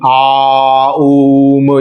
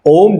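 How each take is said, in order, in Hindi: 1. यह अलग-अलग खिंचे हुए स्वर-ध्वनियों में बँटा होता है। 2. इसे एक ही अक्षर में बोला जाता है। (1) "ये ये कोरी बकवास" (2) "ओम का सही उच्चारण मैं आपको बताता हूं"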